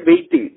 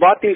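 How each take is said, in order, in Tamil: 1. முதல் உயிரொலி 'bay' போல ஒலிக்கும். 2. முதல் உயிரொலி 'bath' போல ஒலிக்கும். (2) "பாத்திங் சொல்ற"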